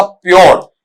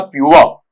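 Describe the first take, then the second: First: "प्योर" as pyor with full r; wrong pronunciation. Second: "प्योर" as pyu-uh, silent r; correct pronunciation. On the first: Teacher quotes product packaging, mispronounced. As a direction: say "प्योर", sounding the final r. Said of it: "phonetically गलत है". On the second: Teacher gives the pure reading, pronounced correctly. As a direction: say "प्योर" gliding to uh at the end. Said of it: "यहां पर शुद्ध उच्चारण होता है". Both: Shown as a demonstration.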